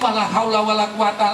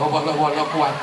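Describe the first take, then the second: First: The word haula is said in full. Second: The word haula is dropped from the phrase. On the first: The speaker calls it right. "sing bener ki" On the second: The speaker calls it wrong. "terus isone mung"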